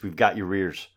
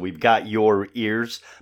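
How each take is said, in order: First: The words run together, sounding like rears. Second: The words are said separately at normal speed.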